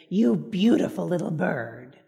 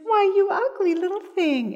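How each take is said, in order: First: Slow, low and tender to a little bird; mother praising the pet blue jay, slow and tender; sweet to a bird. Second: High, sharp mock insult to a bird; mother scolding the blue jay in a high put-down. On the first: Retold or imitated. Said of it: "she said to the little blue jay". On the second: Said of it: "And then she said".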